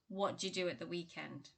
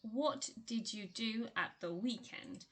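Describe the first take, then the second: First: The small words are squeezed together even further. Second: Every word is pronounced fully and clearly. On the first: "might even be reduced to" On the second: "you read it as"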